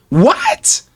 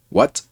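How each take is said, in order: First: Sharp, high-pitched disbelieving what; a sudden, squeaky jump in pitch on the single word; shocked high what. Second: Said in the usual way. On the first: Retold or imitated. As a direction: replay the shocked what from the hospital. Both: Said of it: "I said that the same way I said it here".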